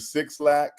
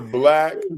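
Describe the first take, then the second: First: The name is said as two words, six lack. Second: The name is said as one word, black. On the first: The speaker calls it wrong. "Somebody said they were listening to Six Lack" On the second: The speaker calls it right.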